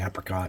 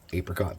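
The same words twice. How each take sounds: First: It is pronounced the way Southerners say it. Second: It is pronounced the way non-Southerners say it. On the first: "if you're from the south, you say apricot" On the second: "everywhere else you say apricot"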